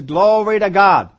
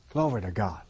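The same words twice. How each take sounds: First: Glory to God louder and slow, stressing God; emphatic praise. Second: Low, soft murmured Glory to God; quiet praise. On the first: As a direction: proclaim Glory to God slowly and boldly. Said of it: "That's an attitude that says". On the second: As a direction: say Glory to God softly under your breath. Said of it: "That's the attitude that we should come in with". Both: Shown as a demonstration.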